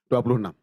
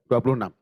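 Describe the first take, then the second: No difference in how they are said.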